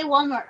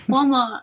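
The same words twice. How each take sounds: First: Said in the usual way. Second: Walmart with an Australian dropped R; Australian-accented "Walmart", no R before the T. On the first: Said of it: "can you say Walmart". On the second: Shown as a demonstration. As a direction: say Walmart the Australian way, ending on an open "ah". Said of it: "They wanna hear your accent".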